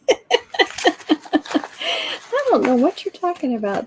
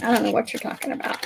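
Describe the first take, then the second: First: Louder playful insistence on don't; hammed-up innocent denial; mock denial. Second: Teasing mock denial; mock innocence. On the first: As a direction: protest innocence with emphasis. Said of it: "she's using that mom voice". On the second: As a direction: deny it like you didn't do it. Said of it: "I wasn't yelling".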